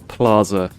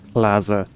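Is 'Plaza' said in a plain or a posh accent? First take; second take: posh; plain. First: The word is said in a posh accent. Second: The word is said in a plain accent.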